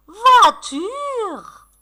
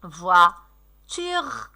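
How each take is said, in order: First: "Voiture" high and drawn out in one sweep; delighted announcement. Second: "Voiture" in two separated beats; syllable by syllable. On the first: Pretend. Teacher welcoming pupils' word, "Voiture" high and excited. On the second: Shown as a demonstration. Teacher scanning for pupils, "Voiture" in separate syllables. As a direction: split "Voiture" into voi, pause, ture. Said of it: "Allez scander les mots".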